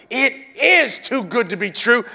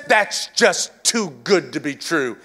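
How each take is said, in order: First: "is" pressed hard, answering the scoff; stress on is. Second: Imitating religion's doubt about grace; mock doubting voice. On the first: Shown as a demonstration. Preacher answering religion's doubt, stress on "is". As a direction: insist "It is too good to be true". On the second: Preacher voicing religion's doubt about grace, mild scoff. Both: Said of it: "religion says".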